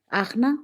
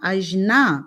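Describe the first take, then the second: First: The middle consonant is a deep throaty kh-sound. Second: The middle consonant is a soft j-like sound. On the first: "πολλές φορές προφέρεται σαν χου, σαν βαθύ" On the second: "κάπως έτσι λέγεται"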